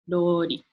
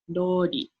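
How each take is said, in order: First: The R is a blend of R and L. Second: The R is a blend of R and L.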